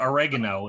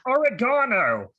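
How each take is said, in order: First: American oregano. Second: Oregano said the British way, stress on GA; slow, careful British oregano; mock British pronunciation of oregano. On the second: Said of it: "I have to translate". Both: Shown as a demonstration.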